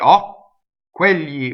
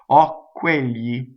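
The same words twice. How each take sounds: First: The doubled consonant is heavily exaggerated. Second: The doubled consonant is soft and subtle. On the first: The speaker calls it wrong. "You don't want to exaggerate" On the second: The speaker calls it right. "it's just like a little bit of spice"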